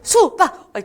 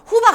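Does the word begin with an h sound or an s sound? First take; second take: s; h. First: The word begins with an s sound. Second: The word begins with an h sound. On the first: The speaker calls it right. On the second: The speaker calls it wrong.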